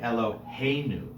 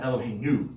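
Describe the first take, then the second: First: The stress is on the second-to-last syllable. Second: The stress is not on the second-to-last syllable. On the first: The speaker calls it right. "that's usually when we find the accent moving to the second to last syllable" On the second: The speaker calls it wrong.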